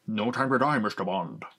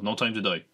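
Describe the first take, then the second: First: A hint of a Scottish Connery Bond voice; light Sean Connery accent. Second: Said in the usual way. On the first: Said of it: "I did a Sean Connery accent as Bond". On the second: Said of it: "I did a Sean Connery accent".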